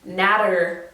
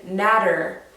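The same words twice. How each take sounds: First: The middle consonant sounds like a soft D. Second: The same.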